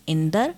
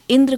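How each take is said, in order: First: "इंदर" with a vowel between d and r; Punjabi pronunciation. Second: Said in the usual way. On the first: Shown as a demonstration. Lecturer showing Punjabi form of Indra, "इंदर" as in-dar. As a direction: end "इंदर" as in-dar, cluster opened. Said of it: "इसीलिए Punjabi". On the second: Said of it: "इंद्र को इंदर".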